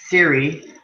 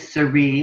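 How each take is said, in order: First: The name is said the common way. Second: The name is said the French way. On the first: The speaker calls it wrong. "most people pronounce it" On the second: The speaker calls it right. "but it is Sari and it's French"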